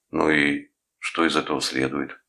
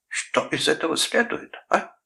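First: A touch of rudeness; mildly rude, challenging question. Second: High-pitched indignant echo, rising; mock the question back in outrage. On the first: Nephew challenging his uncle's accusation, mildly rude. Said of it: "грубо спросил Томми". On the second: Uncle throwing nephew's words back, indignant. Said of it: "возмутился дядя Гарольд". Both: A narrator's reading.

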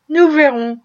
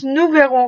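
First: Nous verrons, said with an audible smile. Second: Said in the usual way. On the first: A narrator's reading. Wife answering her husband's hint, smiling. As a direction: let the smile show as you say Nous verrons. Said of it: "Un sourire très visible glissa". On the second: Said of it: "répliqua madame Bird".

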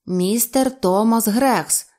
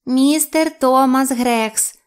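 First: Slow, deliberate model phrase; повільне навчання. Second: Slow, high, loud creature echo; саламандра повторює. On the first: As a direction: say the name slowly for a creature to copy. Грекс учить саламандру свого імені. (повільно, розбірливо) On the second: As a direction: parrot the name back slowly, pitched up. (повільний високий голос саламандри) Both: A narrator's reading.

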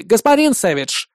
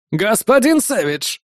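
First: Gloating, smug; gloating chuckle. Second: Slow, oily gangster call; smarmy gangster greeting. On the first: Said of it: "злорадно усмехнулся Тотти". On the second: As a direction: hail him from the car, oily. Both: Acted.

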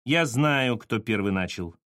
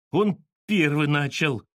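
First: Curt cutting-off. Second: Slow, drawn-out protest; uncertain mutter. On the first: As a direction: cut him off with finality. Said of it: "отрезала Саша". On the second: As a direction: grumble a half-sure excuse, stretching it. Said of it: "пробормотал Петька неуверенно". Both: A narrator's reading.

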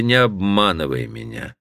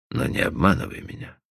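First: Said in the usual way. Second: Softer, unvoiced whisper; whispered plea. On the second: Cowperwood whispers to Stephanie not to deceive him. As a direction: breathe the plea barely aloud. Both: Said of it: "repeated plea".

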